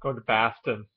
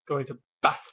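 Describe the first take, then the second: First: It is said in a common local Boston accent. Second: It is said in an English-sounding upper-class accent. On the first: "there's the one I just did" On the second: "there's the Bohemian. ... very English sounding"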